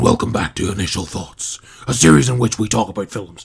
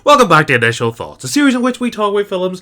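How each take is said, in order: First: It is said in a put-on performing voice. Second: It is said in a natural everyday voice.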